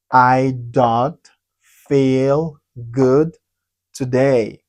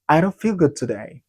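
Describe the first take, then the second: First: "I don't feel good today" slow, with pauses between words; slow word-by-word model. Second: Said in the usual way. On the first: Shown as a demonstration. Teacher modelling a new sentence, slow and separated.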